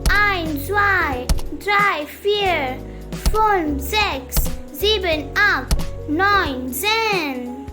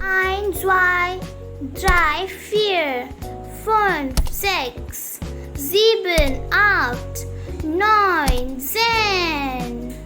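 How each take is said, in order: First: The numbers are counted at a faster pace. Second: The numbers are counted at a slower pace.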